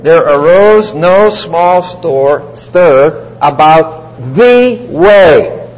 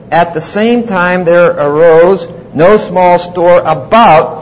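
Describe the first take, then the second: First: Slow, each word laid out, "the" in "the way" pressed firmly; stress on the article the. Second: Said in the usual way. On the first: Shown as a demonstration. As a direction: read it word by word and lean on "the". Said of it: "Literally, you would translate it". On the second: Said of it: "the King James says that way".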